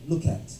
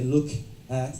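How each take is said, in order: First: The two words are linked together. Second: The two words are said separately. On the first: The speaker calls it right. "they say look at" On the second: The speaker calls it wrong. "they don't say look at"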